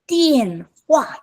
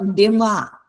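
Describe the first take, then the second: First: The first syllable is drawn out long. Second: The first syllable is short and clipped. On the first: The speaker calls it right. "it's 电话. Okay, 电话 is long" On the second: The speaker calls it wrong. "it's not 电话"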